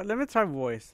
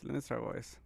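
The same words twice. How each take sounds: First: Said in the usual way. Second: Low, soft mic check; quiet voice test. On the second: Shown as a demonstration. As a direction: mutter it softly into the mic.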